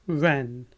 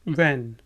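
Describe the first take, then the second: No difference in how they are said.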